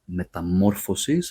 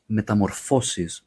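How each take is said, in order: First: The stress falls on the syllable mo. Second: The stress falls on the syllable fo. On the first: It is the singular form. "Singular, metamorphosis, so it's mo" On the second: It is the plural form. "the plural is metamorphosis, so it goes on the fo"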